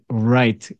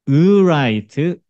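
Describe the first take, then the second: First: The word starts directly with the R sound. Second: A short 'eu' vowel is heard before the R. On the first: "으를 점점 점점 줄여서 으가 거의 소리가 나지 않게" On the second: "R 발음은 앞에 으를 발음을 한다 생각해봐"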